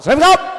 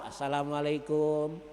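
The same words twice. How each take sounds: First: It is said in a police or Jawara manner. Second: It is said in Pak Ahmad's greeting manner.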